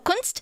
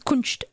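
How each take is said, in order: First: The word has a plain s sound. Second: The s is said as sh, Swabian-style.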